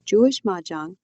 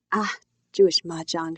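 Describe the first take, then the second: First: Lightly voiced explaining mother; explanation voice. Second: A touch of dismissive disgust. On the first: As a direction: announce the topic as if starting a lesson. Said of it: "in her English explanation voice". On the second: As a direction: scoff lightly, as if it were beneath you. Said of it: "she says in disgusted tones". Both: A narrator's reading.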